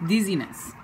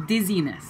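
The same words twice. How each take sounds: The two takes are said the same way.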